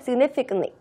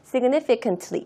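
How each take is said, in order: First: The T in the ending is almost silent. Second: The T in the ending is clearly pronounced. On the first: The speaker calls it right. "significantly 이렇게 발음을 하지" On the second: The speaker calls it wrong. "significantly 이렇게 발음하지 않습니다"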